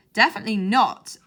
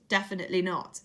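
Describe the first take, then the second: First: Definitely not, louder, a flat firm refusal; firm exclamation. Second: Definitely not, softer, said with a sly nudge-nudge wink; knowing wink. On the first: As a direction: shut the idea down hard with Definitely not. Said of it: "Jenkins exclaimed". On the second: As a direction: say Definitely not as if it secretly means yes. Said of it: "doing air quotes with his hands and winking". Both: A narrator's reading.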